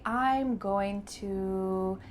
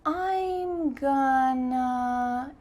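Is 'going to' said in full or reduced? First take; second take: full; reduced. First: Going to is said in full. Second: Going to is reduced to gonna. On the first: The speaker calls it right. "it's best to say" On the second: The speaker calls it wrong. "You don't want to say"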